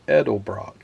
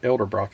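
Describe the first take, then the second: First: The name begins with the sounds 'Edel'. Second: The name begins with the sounds 'Elder'. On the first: The speaker calls it right. "it's Edelbrock" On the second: The speaker calls it wrong. "I've always said Elderbrock, but it's not Elderbrock"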